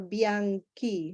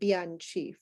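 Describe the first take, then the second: First: The last syllable has a hard k sound. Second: The last syllable has a ch sound. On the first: The speaker calls it right. "Signor Bianchi" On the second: The speaker calls it wrong. "not Bianchi"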